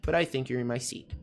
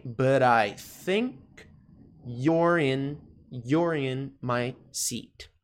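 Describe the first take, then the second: First: "But I think you're in my seat" run together; softer, joined-up full-sentence take; connected pronunciation model. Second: Slow, piece-by-piece "but I think you're in my seat"; careful teacher's model with pauses between chunks; slow pronunciation model. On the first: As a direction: link the whole sentence softly in one go. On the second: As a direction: draw out each chunk for learners to copy. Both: Shown as a demonstration. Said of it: "Coisinhas importantes com relação à pronúncia".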